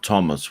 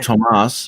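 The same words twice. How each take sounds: First: The name has an English pronunciation. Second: The name has an Irish pronunciation. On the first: "which is English" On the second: "the Irish version"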